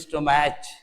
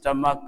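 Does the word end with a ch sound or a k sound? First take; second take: ch sound; k sound. First: The word ends with a ch sound. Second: The word ends with a k sound. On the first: The speaker calls it wrong. "कुछ लोग पढ़ते हैं स्टोमैच, एकदम गलत हो जाएगा" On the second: The speaker calls it right. "इसको पढ़ते हैं स्टमक"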